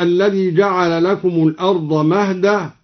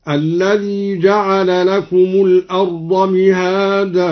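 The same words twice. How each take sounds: First: Said in the usual way. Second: مهادا said as mihadan with a long a; kasra and long a. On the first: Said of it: "قرأ الدوري بكسر الميم ممدودة". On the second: Shown as a demonstration. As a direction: open مهادا on a kasra, then stretch the a. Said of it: "بكسر الميم ممدودة هكذا". (مِهادا بكسر الميم ومد)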